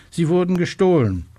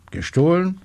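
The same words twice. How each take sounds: First: High, alarmed exclamation falling at the end; agitated report. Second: High, astonished echo question; startled question. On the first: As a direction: break the bad news in agitation. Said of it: "ein aufgeregter Schrei". (aufgeregter, hoher Ausruf) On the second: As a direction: repeat it in disbelief, pitched up. Inspector startled by the theft. (erstaunte, hohe Rückfrage) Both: A narrator's reading.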